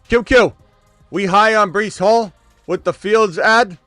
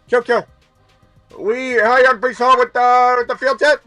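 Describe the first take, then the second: First: It is read in his normal voice. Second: It is read in a put-on megaphone voice.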